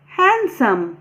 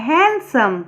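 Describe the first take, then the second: First: हैंडसम with the d sounded, said the wrong way on purpose; हैंडसम said with a clear d, as a mistake to avoid. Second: हैंडसम said as hensəm, with no d; हैंडसम with the d dropped, as hensəm; silent d. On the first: Teacher showing students the wrong way to say it. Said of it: "हैंडसम तो कोई नहीं बोलता". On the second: Teacher showing students the right way with silent d. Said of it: "डी silent होता है". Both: Shown as a demonstration.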